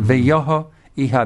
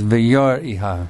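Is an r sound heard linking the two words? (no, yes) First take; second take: no; yes. First: The words are joined without an r sound. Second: An r sound links the two words. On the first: "veyoho iha becomes" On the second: "becomes veyor iha. It flows better"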